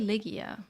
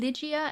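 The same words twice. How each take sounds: First: The G is said as a hard sound. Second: The G is said like English letter G. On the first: "so I guess in Polish it's different" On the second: "So it would be Ligia in Romanian"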